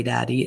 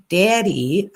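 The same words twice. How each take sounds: First: Said in the usual way. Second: "Daddy" mimicked with a rising end; imitating mom's "daddy". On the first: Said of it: "it's not like Truth would say". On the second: Host showing the irritating way mom says it, mocking imitation. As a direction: lift the end of "Daddy" in mild mockery. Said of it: "It's like".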